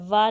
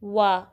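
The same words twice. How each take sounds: First: वा begun as va without rounded lips; unrounded v opening वा; wrong v sound. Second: वा begun with rounded lips as w; w sound, not v, on वा; rounded waw. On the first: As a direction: say वा with a lip-to-teeth v. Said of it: "वा नहीं पढ़ेंगे". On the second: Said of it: "होंठों को गोल करना है". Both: Shown as a demonstration.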